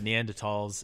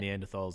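First: It is said with a learned-sounding pronunciation. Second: It is said with an everyday, casual pronunciation. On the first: The speaker wants to sound smart. "if I want to sound smart" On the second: The speaker is just chatting normally. "if I'm just having a general conversation"

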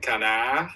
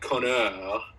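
First: The name is said in a French-Chicago accent. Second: The name is said in a plain accent. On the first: It sounds like a rude French word. "with a Chicago and a French accent" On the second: It is the proper form of the name. "the way you properly say my name is Connor"

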